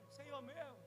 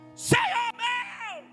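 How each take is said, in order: First: It is said calmly, without shouting. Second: It is shouted loudly, like a Pentecostal.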